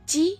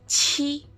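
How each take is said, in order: First: The consonant is released without a puff of air. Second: The consonant is released with a puff of air. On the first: "tanpa ada hembusan udara" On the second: "ada hembusan udara"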